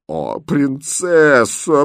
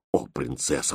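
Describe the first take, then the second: First: High, very drawn-out wail; groaning. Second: Low, soft moan of dismay; groaning. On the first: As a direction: moan it long and loud in despair. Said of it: "простонала бедная гофмистерина". (протяжный громкий стон) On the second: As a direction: groan it weakly, a despairing governess. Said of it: "простонала гофмистерина". (со стоном) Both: Acted.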